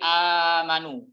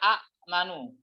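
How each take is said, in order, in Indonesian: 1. Vokal pertama justru dipanjangkan. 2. Hamzah kedua mengikuti vokal pertama. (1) "hamzah kedua diibdal, diganti menjadi amanu" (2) "asal katanya adalah amanu"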